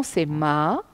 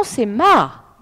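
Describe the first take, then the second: First: "ma" dropping downward, Mandarin fourth tone; falling fourth tone. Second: "ma" with the voice going up, Mandarin second tone; rising second tone. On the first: Teacher showing students the fourth tone, falling on "ma". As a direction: let the pitch fall on "ma". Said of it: "On descend". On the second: Teacher showing students the second tone, rising on "ma". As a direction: lift the pitch on "ma" as it is said. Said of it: "Je monte le ton". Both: Shown as a demonstration.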